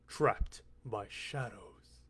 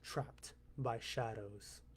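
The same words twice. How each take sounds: First: It is said with more dramatic intensity. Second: It is said plainly, without extra intensity.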